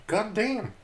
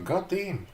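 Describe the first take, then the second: First: Much higher, awed repeat; even more amazed god damn. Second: Higher, impressed exclamation; amazed god damn. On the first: Streamer reenacting his amazement, climbing higher. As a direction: top the first one with extra awe. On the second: Streamer reenacting his amazement at polite cops. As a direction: act out being blown away. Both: Retold or imitated. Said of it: "adică eram".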